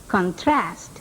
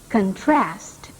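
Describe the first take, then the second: The two takes are said the same way.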